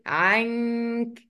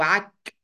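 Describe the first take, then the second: First: The n is hidden with a held nasal sound. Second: The n is dropped completely. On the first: The speaker calls it right. "بنخبيها شويه ... مع بقى الغنه" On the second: The speaker calls it wrong. "مش بلغي النون خالص"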